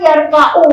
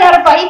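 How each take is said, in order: First: The word ends with a u vowel. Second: The word ends with an i vowel. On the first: This is the form one would normally expect. "mestinya kan yarfa'u kan" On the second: A condition stated earlier changes the ending. "kalau itu tuh dibacanya kasro"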